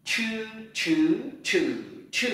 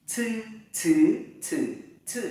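First: "Chư" with the tongue curled and the breath bursting out; hard, puffed retroflex "Chư"; curled aspirated ch. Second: "Chư" with a strong puff of breath; aspirated c. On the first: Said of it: "Hơi bật ra mạnh nhé". ("Chư" cuộn lưỡi, bật hơi) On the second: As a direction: push air hard through every "Chư". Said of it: "Hơi từ bụng đẩy ra mạnh này". ("Chư" bật hơi mạnh) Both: Shown as a demonstration.

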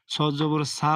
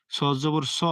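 First: "সা" said thin with an open aa vowel; wrong thin sad. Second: "স" said thick and rounded, vowel toward o; full, heavy sad. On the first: Teacher warns learners with the faulty reading, thin open "সা". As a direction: flatten "সা" into a light s plus open aa. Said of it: "পড়লে কিন্তু হবে না". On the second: Teacher shows the correct heavy letter, thick rounded "স". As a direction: fill the mouth on "স", no open "aa". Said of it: "মোটা করে পড়তে হবে". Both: Shown as a demonstration.

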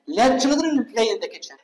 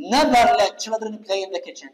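First: Said in the usual way. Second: الضغط على never في أول الجملة; ابدأ بكلمة never واضحة ثم أكمل ببطء; never منبورة. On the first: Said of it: "لما نجي نحذف never". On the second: Shown as a demonstration. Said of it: "بينما شوف بالجملة الثانية". (ضغط على كلمة never وقراءة بطيئة)

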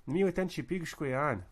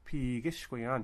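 First: "Miweten Chipigishkwayan" raised, with "pig" keeping the stress; actual stress pattern. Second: "Pigishkwayan" with the stress shifted from "pig" onto "ish"; expected wrong stress. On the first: Teacher correcting the expected pattern, "Chipigishkwayan" stressed on "pig". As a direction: keep the weight on "pig" in "Chipigishkwayan", "ish" squeezed to sh. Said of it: "but it doesn't happen. It's".

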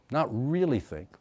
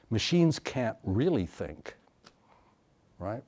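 First: Really pushed up and falling in Not really think; stress on really. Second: Slow, dismissive recital of Machines can't really think; mocking a cliche. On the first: Retold or imitated. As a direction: lean on really. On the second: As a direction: parrot the stock line, slow. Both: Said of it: "the same mechanical repetition of a cliche".

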